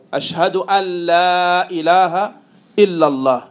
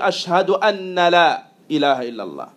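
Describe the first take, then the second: First: The n before la is concealed. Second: The n before la is clearly pronounced. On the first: The speaker calls it right. "on appelle ça يعني الإخفاء" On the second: The speaker calls it wrong. "on entend certains dire"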